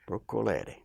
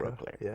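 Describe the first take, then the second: First: The surname has its original Italian vowels. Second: The surname has anglicized English-style vowels. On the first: This was the family's original name. "his given name was Broccoliere" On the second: This is the name as adapted in America. "better to pronounce it phonetically"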